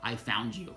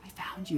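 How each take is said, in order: First: Lower, firm voice of a being; imitated unseen voice, pitched down; imitated being's voice. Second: Higher-pitched, lighter take; raised pitch, no weight; casual mock version. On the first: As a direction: say it low and deliberate, as the voice really sounded. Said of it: "It was like". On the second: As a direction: say it high, as the version it was not. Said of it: "it was not just like". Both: Shown as a demonstration.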